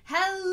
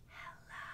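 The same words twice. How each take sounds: First: It is said very loudly. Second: It is said very quietly.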